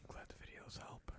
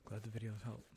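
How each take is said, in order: First: Soft unvoiced whisper, much quieter. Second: Said in the usual way. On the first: Shown as a demonstration. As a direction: breathe the words out in a whisper.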